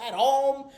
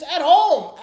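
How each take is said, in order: First: Said in the usual way. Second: Louder punch on home; loud emphatic. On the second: Real, not acted. Fan stressing the home loss to viewers, loud and emphatic. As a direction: slam the word home.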